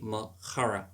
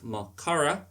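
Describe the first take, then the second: First: The C is a throaty, rasping sound. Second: The C is a hard K stop. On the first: The speaker calls it right. "make it with my throat" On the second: The speaker calls it wrong. "instead of Makara"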